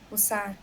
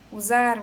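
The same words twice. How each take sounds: First: The middle consonant is a hissing S sound. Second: The middle consonant is a buzzing Z sound.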